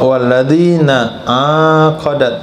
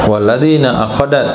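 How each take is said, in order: First: The first vowel of aqadat is long. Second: The first vowel of aqadat is short. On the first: "La taqra ... dengan alif" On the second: "tanpa alif"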